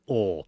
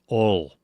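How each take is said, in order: First: The word is short and clipped. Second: The word is drawn out and fully pronounced. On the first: "there's others who say it like" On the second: "these transplants say it very pronounced"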